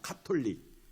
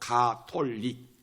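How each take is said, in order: First: The first consonant is a strongly aspirated k. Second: The first consonant is a plain, unaspirated g. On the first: This is the form based on the English word. "영문으로 카톨릭입니다" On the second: This form puts the name first in alphabetical lists. "카톨릭이 아니고 가톨릭"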